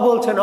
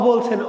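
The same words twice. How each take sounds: The two takes are said the same way.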